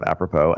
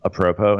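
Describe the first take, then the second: First: Said in the usual way. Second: "apropos" said the speaker's new, nonstandard way; altered pronunciation of apropos. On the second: Shown as a demonstration. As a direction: say "apropos" as the mistaken variant. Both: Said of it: "apropos instead of apropos".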